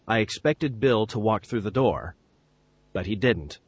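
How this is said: A long pause comes before "but he didn't".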